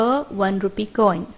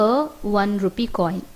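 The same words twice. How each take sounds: No difference in how they are said.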